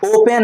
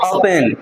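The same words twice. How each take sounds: First: ओपन said wrongly, higher and stretched; the mistaken ओपन, o-pen with a lengthened n; wrong pronunciation. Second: ओपन said plainly and a touch lower, oh-pun; ओपन, short and settled; correct pronunciation. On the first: (गलत उच्चारण: ओपन, खींचकर) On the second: (सही उच्चारण: ओपन, छोटा और नीचा) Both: Shown as a demonstration. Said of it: "ओपन नहीं".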